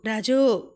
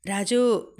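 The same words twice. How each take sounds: First: Second call for Raju, pushed harder; louder call. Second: A mother's first call for Raju, lightly raised. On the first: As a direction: shout the name again, more insistent. (రాజును గట్టిగా రెండోసారి కేక) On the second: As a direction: call the name across the house. (రాజును పిలుస్తూ మొదటి పిలుపు) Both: A narrator's reading. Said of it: "అంటూ కేకలు పెట్టింది".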